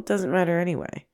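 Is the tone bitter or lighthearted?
lighthearted. It sounds casual and lighthearted. There is freedom to be silly. "it becomes a much more like casual, lighthearted"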